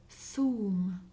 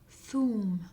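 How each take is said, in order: The two takes are said the same way.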